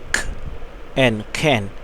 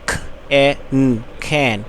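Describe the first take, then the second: First: The last two sounds are blended into one. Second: All three sounds are said separately. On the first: "শেষের দুটি word কিন্তু আমরা একসাথে উচ্চারণ করেছি" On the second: "তিনটি বানান করে পড়াবো"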